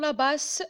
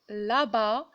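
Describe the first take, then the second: First: A final S sound is pronounced. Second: The word ends without an S sound. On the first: The speaker calls it wrong. "Je ne vais pas dire la basse" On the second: The speaker calls it right. "toujours S muette"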